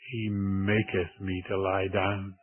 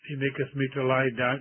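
First: The word maketh is stressed. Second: The word maketh is not stressed.

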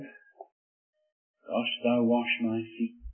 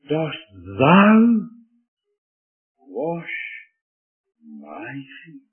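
First: The pronouns are not given special stress. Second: The pronouns thou and my are stressed. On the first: The speaker calls it wrong. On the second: The speaker calls it right.

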